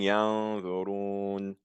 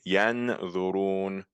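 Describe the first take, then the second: First: The middle n is hidden and not clearly heard. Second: The middle n is pronounced fully and clearly. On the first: "but I'm saying yanzurun. So you're not hearing the n" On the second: "The original pronunciation would be yanzurun"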